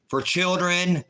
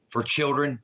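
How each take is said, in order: First: Pitched-up disbelieving repeat; incredulous echo. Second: Said in the usual way. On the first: Real, not acted. Streamer repeats it to chat, incredulous. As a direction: throw it back in disbelief.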